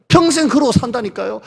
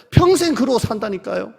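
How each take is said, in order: Both takes have the same delivery.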